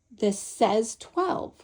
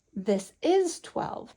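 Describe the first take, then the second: First: "says" leaned on, whole line slow and drawn out; stress on says. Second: "is" leaned on, slow and deliberate; stress on is. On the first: Teacher showing a child the written symbol, stressing says slowly. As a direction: give "says" the weight, slowly. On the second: Teacher showing a child the bead quantity, stressing is slowly. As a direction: press on "is" to show the quantity. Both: Shown as a demonstration. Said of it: "we need to emphasize that this says eleven".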